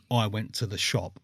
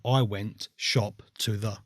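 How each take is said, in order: First: Said in the usual way. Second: Slow, word-by-word scrambled sentence; muddled word order. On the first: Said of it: "if you give me a sentence saying". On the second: Shown as a demonstration. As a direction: lay out "shop to the" slowly, word by word. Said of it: "I would write".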